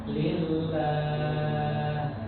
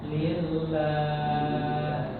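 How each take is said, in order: No difference in how they are said.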